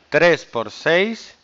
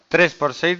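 First: It is spoken slowly. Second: It is spoken quickly. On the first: "Le voy a hacer más lentito" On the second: "Lo voy a hacer rápido"

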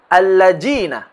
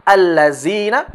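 First: The middle consonant is a 'j' sound. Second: The middle consonant is a 'z' sound.

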